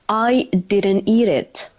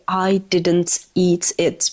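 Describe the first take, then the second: First: The words run together with softened, flapped consonants. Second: Each word is said separately with crisp consonants. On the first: The speaker calls it right. "what native speakers are going to say" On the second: The speaker calls it wrong. "native speakers don't say I didn't eat it"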